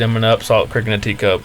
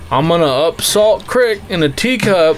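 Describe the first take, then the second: First: The phrase is said at a quick, normal pace. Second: The phrase is said slowly and deliberately.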